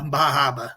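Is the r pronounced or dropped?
dropped. It is said in a Maine accent, r dropped.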